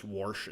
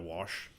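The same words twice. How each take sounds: First: "warsh" with an r slipped in, wahrsh; "warsh" with an added r before the sh; Midwestern warsh. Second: Said in the usual way. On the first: Shown as a demonstration. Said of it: "he says "warsh" instead of". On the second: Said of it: "instead of".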